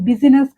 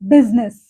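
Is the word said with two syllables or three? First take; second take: three; two. First: The middle vowel is sounded, giving three syllables. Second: The middle vowel is silent, giving two syllables. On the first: The speaker calls it wrong. "బిజినెస్ కాదు" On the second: The speaker calls it right. "ఐని రాస్తాం కానీ పలకూడదు"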